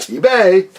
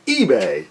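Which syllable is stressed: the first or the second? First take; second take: second; first. First: The first syllable is not stressed. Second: The stress is on the first syllable. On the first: The speaker calls it wrong. "not eBay" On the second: The speaker calls it right. "you hit the E hard"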